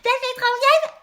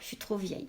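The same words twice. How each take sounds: First: It is said in a Donald Duck voice. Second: It is said in her normal voice.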